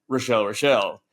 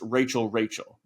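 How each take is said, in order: First: The name is said with a 'Ro-shell' sound. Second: The name is said with a plain 'Ray' sound. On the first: "pronounce it in the Seinfeldian way" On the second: "I'm assuming it's pronounced Rachel Rachel"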